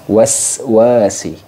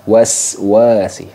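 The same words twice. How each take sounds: First: The s sound is a clear hissing s. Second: The s sound is a clear hissing s.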